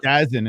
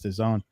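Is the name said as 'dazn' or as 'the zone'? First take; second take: dazn; the zone. First: The name is said as one blended word 'dazn'. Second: The name is said as two words 'the zone'. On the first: The speaker calls it wrong. "used to say Dazn" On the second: The speaker calls it right. "I got the right terminology"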